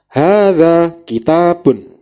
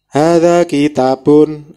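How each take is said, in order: First: It is read with clear stress and distinct pauses. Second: It is read flatly, without clear stress or pauses. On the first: The speaker calls it right. "harus jelas penekanan dan jedanya" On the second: The speaker calls it wrong. "ini seperti membaca bahasa Indonesia"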